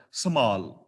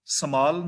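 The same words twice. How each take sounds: First: ਸਮਾਲ with breathed h, "samhaal"; correct reading. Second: ਸਮਾਲ with a plain m; wrong reading. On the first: Teacher shows the right reading, ਸਮਾਲ as "samhaal". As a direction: add a light h after the m in ਸਮਾਲ. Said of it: "ਚੌਥਾ ਹਿੱਸਾ ਹਾਹੇ ਦਾ". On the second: Teacher shows the reading to avoid, ਸਮਾਲ with plain m. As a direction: say ਸਮਾਲ with no h after the m. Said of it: "ਸਮਾਲ ਨਹੀਂ". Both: Shown as a demonstration.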